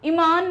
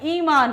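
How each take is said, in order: First: The first vowel is a short i. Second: The first vowel is a long i. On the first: The speaker calls it wrong. "ईमान नहीं होता" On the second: The speaker calls it right. "बड़ी ई रहेगा"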